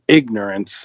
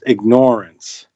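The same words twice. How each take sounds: First: The stress is on the first syllable. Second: The stress is on the second syllable, like ignore. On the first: The speaker calls it wrong. "instead of ignorance" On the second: The speaker calls it right. "it should be pronounced ignorance"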